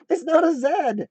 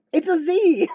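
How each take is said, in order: First: "Z" said as British zed, NOT stressed; "It's not a Z" with zed, hit NOT; "Z" pronounced zed, NOT punched; saying zed. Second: "Z" said as American zee, raised voice; "Z" pronounced zee, higher pitch; saying zee. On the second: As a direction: insist "It's a Z" with zee. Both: Shown as a demonstration.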